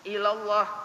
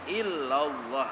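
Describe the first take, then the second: First: The L sound is single and short. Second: The L sound is doubled and held. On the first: It means toward God. The speaker calls it wrong. "Kalau ila artinya ke Allah" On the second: It means none except God. The speaker calls it right. "illallah itu yang bujur"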